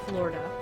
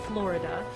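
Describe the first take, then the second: No difference in how they are said.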